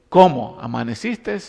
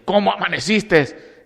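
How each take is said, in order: First: It is said in a contemptuous, indifferent tone. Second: It is said in an angry tone.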